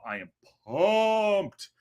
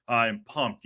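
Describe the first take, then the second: First: Slow, stretched-out "I am pumped", high and hyped; drawn out. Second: Said in the usual way. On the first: Shown as a demonstration. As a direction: drag out "I am pumped" slowly.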